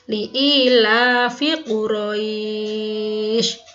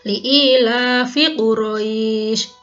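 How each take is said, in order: First: The long vowel is held for six beats. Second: The long vowel is held for two beats. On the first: "enam harokat" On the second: "kalau yang satu alif"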